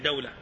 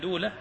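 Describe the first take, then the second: First: The first syllable has the vowel a. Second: The first syllable has the vowel u. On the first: "الفتح فيها يعني دولة" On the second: "بضم الدال من دولة"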